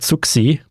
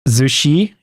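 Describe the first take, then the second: First: The name is read the German way. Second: The name is read the Chinese way. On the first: "like a German pronunciation would be something like Zuxi" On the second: "something like Zushi, if it's more like uh, Chinese"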